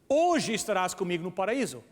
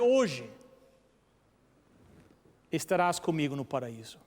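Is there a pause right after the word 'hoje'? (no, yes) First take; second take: no; yes. First: There is no pause after the word hoje. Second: There is a pause right after the word hoje. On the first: Paradise will be reached on that same day. "Ponto e vírgula" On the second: The promise is made today, for later. "se nós mudarmos o ponto e vírgula depois de hoje"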